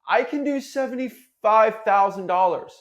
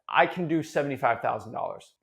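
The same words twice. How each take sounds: First: It sounds hesitant and unsure. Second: It sounds confident and assertive.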